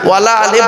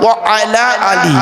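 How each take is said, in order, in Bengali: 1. Wa ও ala মিলে একটি শব্দ, wala হয়। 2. Wa ও ala আলাদা শব্দ হিসেবে বলা হয়।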